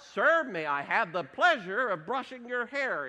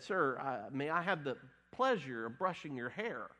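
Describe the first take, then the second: First: It is blurted out loudly. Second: It is said quietly and hesitantly.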